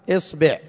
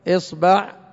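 First: The vowel after b is i. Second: The vowel after b is u. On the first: "ومكسورة" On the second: "ومضمومة"

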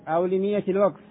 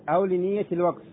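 The two takes are said the same way.

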